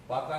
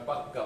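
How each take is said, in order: First: Said in the usual way. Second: পাক্কা with a long held double k; doubled consonant. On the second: Shown as a demonstration. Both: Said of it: "পাকা না বলে আমরা অনেক সময় পাক্কা বলি".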